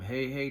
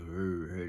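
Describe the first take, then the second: First: It is said at a normal speed. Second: It is said slowly, dragged out.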